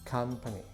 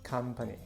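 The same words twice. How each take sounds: Both takes have the same delivery.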